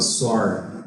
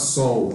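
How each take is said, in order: First: The word ends with a countryside R sound. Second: The word ends with a standard L-like sound. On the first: "ela falava sor" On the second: "falava sol"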